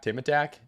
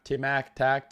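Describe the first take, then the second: First: "Tim Attack" said smoothly as one name, pitch up; landing on the right reading, "Tim Attack", with relief; corrected name. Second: "Tim Ack Tac" sounded out in three separate chunks; misreading the chat name as "Tim Ack Tac", haltingly; wrong name guess. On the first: Streamer finally reads a viewer's username correctly, smooth and pleased. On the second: Streamer stumbles over a viewer's username, halting misreading. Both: Shown as a demonstration.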